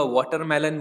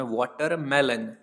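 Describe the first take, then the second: First: Said in the usual way. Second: watermelon said slowly, syllable by syllable, falling at the end; slow clear repeat. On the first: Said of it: "watermelon बोला जाता है". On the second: Shown as a demonstration. Teacher repeats the English word watermelon for Hindi-speaking students, slow and clear. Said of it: "watermelon बोला जाता है English में".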